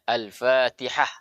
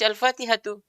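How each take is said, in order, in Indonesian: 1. Kata ini diakhiri dengan konsonan mati. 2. Kata ini diakhiri dengan bunyi vokal. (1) "dibaca Al-Fatihah. Ah, mati ha" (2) "tidak kita baca Al-Fatihatu"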